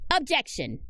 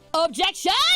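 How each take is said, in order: First: It is said softly. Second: It is said loudly.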